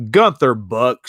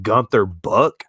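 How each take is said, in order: First: Said in the usual way. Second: Savoring. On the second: Real, not acted. Repeating the name, savoring it.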